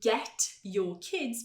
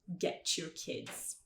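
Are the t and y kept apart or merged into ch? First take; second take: apart; merged. First: The t and y are said as separate sounds. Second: The t and y merge into a ch sound.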